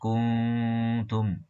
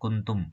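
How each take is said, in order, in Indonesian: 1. Bunyi sengau n ditahan sekitar dua hitungan. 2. Bunyi sengau n dipotong singkat. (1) "Harusnya kuntum" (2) "dibaca kuntum, salah ini"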